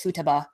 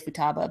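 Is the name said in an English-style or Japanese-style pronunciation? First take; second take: Japanese-style; English-style. First: The name is said with a Japanese-style pronunciation. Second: The name is said with an English-style pronunciation. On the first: The speaker calls it right. "The proper way is Futaba" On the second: The speaker calls it wrong. "that's how the English dub pronounces it"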